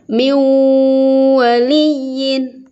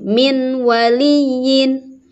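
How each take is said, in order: First: The n merges into w with nasal hum. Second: The n sound is pronounced clearly. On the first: The speaker calls it right. "harus ada dengung" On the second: The speaker calls it wrong. "Tidak boleh"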